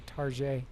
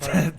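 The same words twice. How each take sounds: First: It is said with a French-sounding ending, like Tarjay. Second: It is said with a plain English ending.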